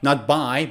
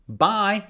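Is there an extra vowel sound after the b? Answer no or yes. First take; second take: yes; no. First: An extra vowel sound follows the b. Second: No extra vowel sound follows the b. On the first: The speaker calls it wrong. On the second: The speaker calls it right. "U is silent"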